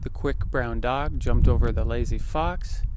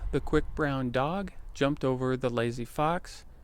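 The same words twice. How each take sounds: First: Some wind noise is heard behind the voice. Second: The wind noise behind the voice is reduced. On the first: "There's a little bit of wind going on here" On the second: "this is what it sounds like with the windshield on"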